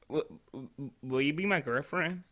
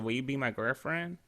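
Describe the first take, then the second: First: It is said nervously with a stutter. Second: It is said confidently and smoothly.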